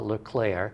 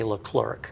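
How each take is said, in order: First: The name is said with French-style sounds. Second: The name is said with English-style sounds. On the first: This is how the name is properly said. The speaker calls it right. "But it is uh, Leclerc" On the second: This is how people unfamiliar with the name say it. The speaker calls it wrong. "if they don't know how to pronounce it correctly, they say Leclerc"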